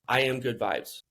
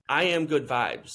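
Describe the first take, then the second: First: It is said flatly, without feeling. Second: It is said with passion and feeling.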